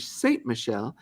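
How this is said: The name is said with an American accent. "the American way"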